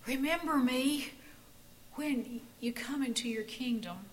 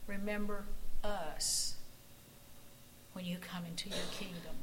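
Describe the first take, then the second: First: A dying man's last breath, fading to a whisper; breathless gasp. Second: Quiet humble plea, sinking to a whisper; prayer. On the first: A narrator's reading. Joachim gasping his plea to Jesus, fading to a whisper. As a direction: squeeze the words out with no air left. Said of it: "he gasped". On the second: Acted. Pastor praying for the congregation, quiet and humble. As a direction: pray it softly, almost whispered.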